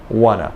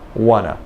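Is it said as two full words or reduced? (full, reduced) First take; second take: reduced; reduced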